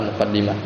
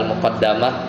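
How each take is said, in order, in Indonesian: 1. Vokal setelah dua d adalah 'i'. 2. Vokal setelah dua d adalah 'a'. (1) "kadang juga bisa dibaca al-muqaddimah" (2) "kadang bisa dibaca al-muqaddamah"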